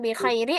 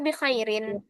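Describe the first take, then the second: First: The last word ends without a final n sound. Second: The last word ends with a final n sound. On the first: The speaker calls it wrong. "Gimana cara baca tanwin?" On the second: The speaker calls it right. "Ada tanwin di huruf ro"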